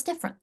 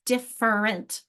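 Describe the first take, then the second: First: "different" slid together as DIFF-rent; natural speech. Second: "different" slowly split as DIFF-ER-ENT; sounding it out. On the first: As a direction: say "different" quickly, middle vowel swallowed. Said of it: "the natural speech very easily". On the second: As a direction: sound out every syllable of "different". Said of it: "sound it out". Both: Shown as a demonstration.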